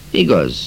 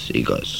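First: Said in the usual way. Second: Much softer, lower repeat; a soft afterthought agreement; soft echo. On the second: A narrator's reading. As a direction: murmur it back quietly. Quiet echoed agreement.

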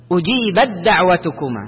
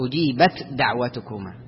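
First: "أجيبت دعوتكما" with ت fully absorbed into a doubled د; ت turned straight into د. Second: "أجيبت دعوتكما" with a separate whispered ت before د, low and soft; mistaken unmerged ت. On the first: Teacher models the correction, ت becomes د directly. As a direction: go from أجيبـ straight onto a held د in دعوتكما. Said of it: "تجعلها دال على طول". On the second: Teacher shows students the mistake, ت left whispered and unmerged. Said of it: "ما تقول". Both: Shown as a demonstration.

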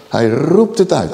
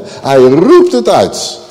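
First: Said in the usual way. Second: Slow, louder burst on 'roept'; crying out. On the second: Shown as a demonstration. Preacher showing the exclamation mark, crying out. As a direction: cry it out, stretching 'roept' into an exclamation. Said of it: "Uitroepteken aan het eind van de zin".

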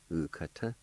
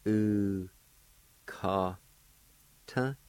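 First: "u, ka, ta" run together as one word; joined-up word. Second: "U, ka, ta" with a long pause after each syllable. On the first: Teacher giving the whole word for face, "u, ka, ta" joined up. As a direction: say "u, ka, ta" straight through without pauses. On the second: Teacher modelling the word for face, "U, ka, ta" syllable by syllable. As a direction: break "U, ka, ta" into drawn-out pieces. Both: Shown as a demonstration. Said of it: "it's pronounced like this".

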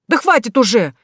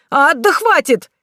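First: Exasperated plea. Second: High, slow pained cry; pained protest. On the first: Groom pleading while chased. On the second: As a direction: wail at being zapped. Groom zapped again, protests. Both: Acted.

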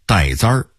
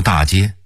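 First: 大街 said the Hongwu way, as 带簪儿; old rhyme-book pronunciation. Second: Said in the usual way. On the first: Shown as a demonstration. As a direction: give 大街 its old court sound, 带簪儿. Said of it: "按照洪武正韵要说".

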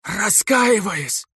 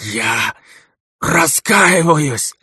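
First: High, drawn-out anguished plea; desperate high wail. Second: Strained plea. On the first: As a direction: cry it out in agony. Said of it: "с надрывом". (надрывная мольба) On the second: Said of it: "с надрывом прошептал". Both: A narrator's reading.

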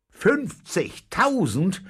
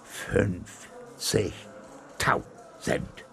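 First: High, loud, drawn-out questioning cry; astonished cry. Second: Very slow, broken syllable by syllable; stammering. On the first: Captain hears of the huge reward, astonished shout. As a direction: call it out slowly in disbelief, rising at the end. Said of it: "rief der Käpt'n". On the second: Captain receives the finder's reward, stunned stammering. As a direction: stammer it out in stunned gasps, a gap after each syllable. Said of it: "stammelte er". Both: A narrator's reading.

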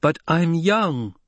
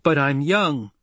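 First: High, slow, drawn-out indignant plea; insist, stretching out "young"; slower, higher-pitched angry protest; insistent repeated protest. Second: Higher-pitched indignant outburst; indignant, voice lifting on "young"; angry protest. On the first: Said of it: "Hara repeated". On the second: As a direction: protest with a stamp of the foot. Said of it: "shook her shoulders with anger". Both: A narrator's reading.

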